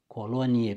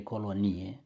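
First: Colonie stressed on the first syllable, CO-lonie. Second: Colonie stressed on the ni, colo-NI-e; other stress. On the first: Teacher showing the first meaning of colonie. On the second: Teacher showing the second meaning of colonie. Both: Shown as a demonstration. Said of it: "Substantivele omografe".

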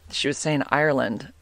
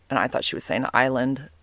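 First: IRELAND with the r sounded, EYE-er-lund; meant as Ireland. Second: ISLAND without any r, EYE-lund; misheard as island. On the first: Podcaster correcting what her friend said, Ireland with r. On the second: Podcaster contrasting what she misheard from her friend, island without r. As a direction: say "island" with the r left out. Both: Shown as a demonstration.

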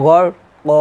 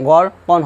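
First: "গড় ক" ending on a long open vowel; "ক" held, tanween n dropped; reading with waqf. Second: "গড় কন" ending in a sounded n; "কন" short, tanween kept; reading without waqf. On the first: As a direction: stretch "ক" for one alif, no n. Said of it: "এখানে এক আলিফ টান দিবেন". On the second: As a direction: close "কন" on n without stretching. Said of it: "ওয়াকফ না দিতাম তাহলে হতো". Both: Shown as a demonstration.

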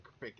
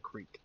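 First: "crick" with a short i; country pronunciation. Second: Said in the usual way. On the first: Shown as a demonstration. Player teaching how to channel Alabama, country pronunciation. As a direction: say "crick" to rhyme with brick. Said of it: "master saying crick instead of creek". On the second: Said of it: "saying crick instead of creek".

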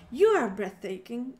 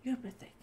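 First: Loud declaration. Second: Breathy, voiceless whisper. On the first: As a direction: proclaim it loudly, with a rising end. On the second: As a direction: whisper it softly like a secret. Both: Shown as a demonstration. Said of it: "was it breathtaking?".

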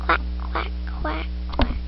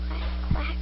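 First: Breathy whispered duck quacks; hushed playful duck imitation. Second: Said in the usual way. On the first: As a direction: whisper the quack sounds like a secret. Kids imitating farm animals.

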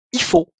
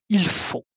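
First: "Il faut" said as "i faut", dropping the l; casual "Il faut" with the l swallowed; relaxed spoken French. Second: Said in the usual way. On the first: Shown as a demonstration. Teacher demonstrating sloppy everyday speech, saying "Il faut" without the l. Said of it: "de manière relâchée". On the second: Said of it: "au lieu de il faut".

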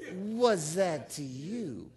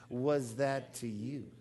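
First: Very slow "Was that to you?" with WAS stressed; last slow call-and-response, "Was" held heavy; slow repeat. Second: Slow, stressed WAS, rising at the end; led call-and-response. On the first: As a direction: draw it out, leaning on "Was". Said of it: "Can we do it one more time?". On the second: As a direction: say "Was that to you?" slowly, leaning on WAS. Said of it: "Could we say it that together? Let's say it that way". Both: Shown as a demonstration.

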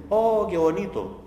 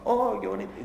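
First: A slow, higher "Oh, qué bonito", pitched up in mock awe at the view; admiring sigh. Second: A quick, higher "Oh, qué bonito" in light mock wonder; admiring sigh. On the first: Lecturer imitating people at a mountain sunset, mock-awed. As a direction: gush over the sunset lazily. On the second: Lecturer repeating the sunset gazer's line, lightly mock-awed. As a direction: toss off the wonder in one breath.

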